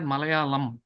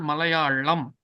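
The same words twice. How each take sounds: First: The L sound is plain and light. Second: The L sound is emphasized and heavy. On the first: The speaker calls it wrong. "it is not Malayalam" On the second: The speaker calls it right. "That is why it is called Malayalam"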